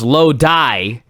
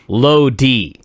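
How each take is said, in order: First: The name ends with a 'die' sound. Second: The name ends with a 'dee' sound. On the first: The speaker calls it wrong. "He says it's Low Die" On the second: The speaker calls it right. "corrects himself to Low D"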